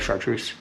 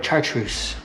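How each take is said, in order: First: The word is said in a plain, everyday way. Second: The word is said in a fancier, posher way.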